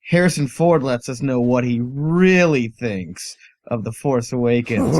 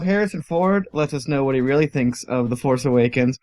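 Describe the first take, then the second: First: It is read in a catchy, punchy teaser way. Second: It is read in a plain, ordinary way.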